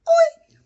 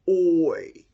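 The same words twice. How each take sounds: First: It is said in a high-pitched voice. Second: It is said in a low-pitched voice. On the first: "Let's try a high voice" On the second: "What about a low voice?"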